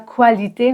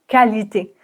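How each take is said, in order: First: The word begins with a 'kw' sound. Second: The word begins with a plain 'k' sound. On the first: The speaker calls it wrong. "On ne dit pas qualité" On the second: The speaker calls it right. "mais K, qualité"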